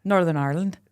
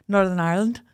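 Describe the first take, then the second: First: Northern Irish accent. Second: Northern Irish accent, overly proper; too-posh Northern Irish. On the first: Co-host retrying after being called posh, Northern Irish accent. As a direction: slightly lower second go at Northern Irish. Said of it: "Was that Northern Irish accent". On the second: Co-host trying the local name, posh Northern Irish. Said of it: "No, that was too posh". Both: Shown as a demonstration.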